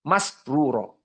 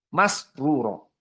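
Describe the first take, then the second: No difference in how they are said.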